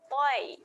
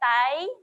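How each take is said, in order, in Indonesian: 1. Vokalnya adalah 'oi' bulat dengan bibir dimonyongkan ke depan. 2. Vokalnya adalah 'ai' terbuka dengan bibir direntangkan. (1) "tetapi bunyinya toi" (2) "Bukan tai"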